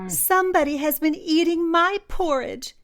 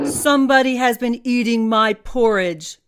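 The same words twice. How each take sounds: First: It is said in a tiny, squeaky voice. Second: It is said in a deep, growling voice.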